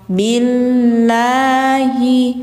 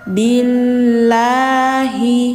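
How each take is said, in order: The two takes are said the same way.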